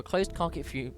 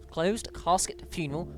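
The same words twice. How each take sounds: First: CASKET fumbled as "carket", breaking off; garbled "casket", stopping short of funeral; tripping over words. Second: CASKET slowly and clearly with its S; re-say "closed casket funeral" slowly, cleanly; slow, careful "casket" after a slip; careful correction. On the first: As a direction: stumble on "casket", cut off at "fu-". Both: Real, not acted. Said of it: "apologise, tripping over words".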